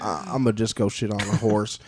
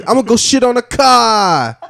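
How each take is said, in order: First: Texas pigeon. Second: Put-on loud, high Boston accent; Boston pigeon. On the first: Acted. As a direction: say it like an unbothered Texan bird. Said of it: "And the Texas pigeon's like". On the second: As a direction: shout it out in broad Bostonian. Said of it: "Like a Boston pigeon just says".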